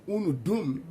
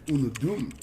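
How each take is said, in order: First: "dum" lifted and leaned on at the end; stress on dum. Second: Said in the usual way. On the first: Shown as a demonstration. Explaining Igbo to viewers, leaning on "dum". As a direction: land firmly on "dum". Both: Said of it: "the dum at the end stresses".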